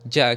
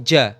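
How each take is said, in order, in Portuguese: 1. As palavras se juntam em uma sílaba curta e reduzida. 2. As palavras se juntam em uma sílaba curta e reduzida.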